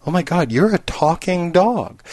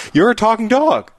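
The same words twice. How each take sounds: First: Slow, dawning astonishment in raised pitch; mock amazement. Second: High, excited burst of disbelief; mock-thrilled astonishment. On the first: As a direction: draw out the disbelief. Bartender's slow realization in joke. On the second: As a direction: exclaim it with hammed-up wonder. Bartender repeats, more amazed.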